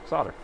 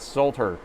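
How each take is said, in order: First: "Solder" said sodder, no L sound, with a flat ah; american solder. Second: "solder" said sold-er, with a clear L and a long o; "solder" as "sold-her", L fully sounded; british solder. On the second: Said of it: "Not solder". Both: Shown as a demonstration.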